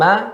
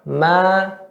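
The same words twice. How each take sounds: First: The vowel is held for one short count. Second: The vowel is held for two counts. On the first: "ma satu harakat" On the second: "ma dua harakat"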